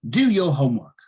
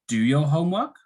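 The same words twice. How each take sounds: First: The voice falls at the end. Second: The voice rises at the end.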